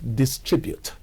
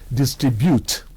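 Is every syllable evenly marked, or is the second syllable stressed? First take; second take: second syllable; every syllable. First: The stress falls on the second syllable. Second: Each syllable carries its own even tone. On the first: The speaker calls it right. "the correct distribute" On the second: The speaker calls it wrong. "every syllable gets its own tone mark"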